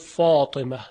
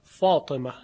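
Both takes have the same delivery.

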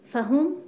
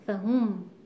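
First: The stress is on the second syllable. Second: The stress is on the first syllable. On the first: The first letter is an added prefix. The speaker calls it right. "فهم نه فهم" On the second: The word seems to come from the root fahm. The speaker calls it wrong. "اگر تأکید بر ف بیاد، تصور میشه که این کلمه از ریشه فهمه هست"

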